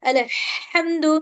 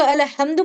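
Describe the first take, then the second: First: अलहम्दु with a long, strong throat ह; correct deep ह. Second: अलहम्दु with an ordinary light h; mistaken light ह. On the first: Teacher models the right letter for students, अलहम्दु with drawn-out throat ह. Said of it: "इस ह से". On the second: Teacher shows the mistake that changes meaning, अलहम्दु with plain h. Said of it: "अगर हम उसको अलहम्दु पढ़ रहे हैं". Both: Shown as a demonstration.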